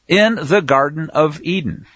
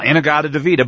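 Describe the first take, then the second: First: Each word is pronounced clearly and separately. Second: The words are slurred together into one blur. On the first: The speaker calls it right. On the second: The speaker calls it wrong.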